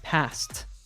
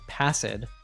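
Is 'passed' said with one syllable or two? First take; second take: one; two. First: The ending is a plain t sound. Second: The ending is said as an extra syllable. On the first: The speaker calls it right. "it's passed" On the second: The speaker calls it wrong. "It's not passed"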